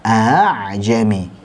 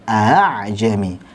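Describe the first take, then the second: First: The second hamzah is light, between stop and vowel. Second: The second hamzah is light, between stop and vowel.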